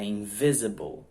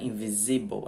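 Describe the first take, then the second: First: "invisible" stressed early, on "vi"; correct English stress. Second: "invisible" stressed late, on "si", Portuguese style; wrong stress. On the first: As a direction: hit "vi" in "invisible", weakening the endings. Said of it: "ela vem antes". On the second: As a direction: misplace the stress in "invisible" onto the second "i". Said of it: "Só que no inglês, ela vem antes". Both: Shown as a demonstration.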